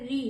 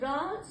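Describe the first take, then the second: First: The syllable is said like ri. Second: The syllable is said like ra. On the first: The speaker calls it right. "उच्चारण की दृष्टि से री है" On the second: The speaker calls it wrong. "र सही उच्चारण नहीं है"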